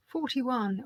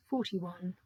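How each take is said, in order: First: Bingo caller. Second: Said in the usual way. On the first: Acted. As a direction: sing out the number like bingo. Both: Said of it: "I sound like a bingo caller".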